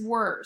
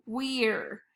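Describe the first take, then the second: First: Said in the usual way. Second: "weir" with a long E, rhyming with ear; sounded-out mispronunciation. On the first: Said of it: "The word is were". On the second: Shown as a demonstration. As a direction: say "weir" as wee-r, E saying its name. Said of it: "that's not right".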